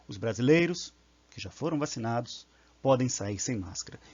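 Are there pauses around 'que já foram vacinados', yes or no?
yes. It has pauses before and after the clause.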